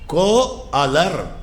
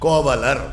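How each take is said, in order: First: The two parts are said separately without a glide. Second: The parts are joined by a linking 'v' sound. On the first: The word is split into its parts. "பிரிக்கச்சே சப்தத்தில் அந்த மாதிரி வேறுபாடு ஏற்படும்" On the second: The parts are combined into one word. "ரெண்டு சப்தங்கள் சேர்கிற போது அந்த நடுவில் அது ஒன்று அத்தியாகாரம் பண்ணி"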